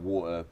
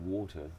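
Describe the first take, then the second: First: The t is replaced by a glottal stop. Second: The t is pronounced as a clear t sound. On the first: This is how people from the speaker's region say it. "that's a glottal stop" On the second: This is how some other people say it. "some people do actually go"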